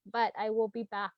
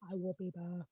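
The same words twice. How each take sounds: First: Said in the usual way. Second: Quiet echo. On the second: Real, not acted.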